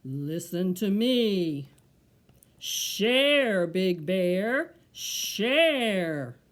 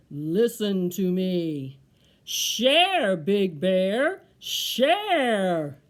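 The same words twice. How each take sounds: First: Low, slow, drawn-out tree call; deep tree voice. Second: Low, slow start swelling to a booming call; deep, loud tree voice. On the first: The tree tells Big Bear to share, deep voice. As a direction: intone it slowly like a deep old tree. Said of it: "low voice said". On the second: The tree orders Big Bear to share, deep and loud. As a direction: boom it out like a commanding tree. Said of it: "a deep, low voice said". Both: Acted.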